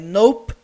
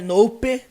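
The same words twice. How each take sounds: First: The word ends sharply on the P sound. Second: The word ends with an added vowel sound. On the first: The speaker calls it right. "é nope, nope, termina no P" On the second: The speaker calls it wrong. "não tem esse som do E aqui no final, não é nope"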